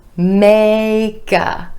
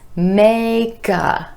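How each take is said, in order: First: The k sound links into the next word. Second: The same.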